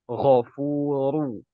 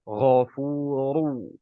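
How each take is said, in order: The two takes are said the same way.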